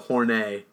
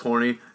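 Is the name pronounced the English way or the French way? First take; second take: French; English. First: The name is pronounced the French way. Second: The name is pronounced the plain English way. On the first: The speaker calls it right. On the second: The speaker calls it wrong.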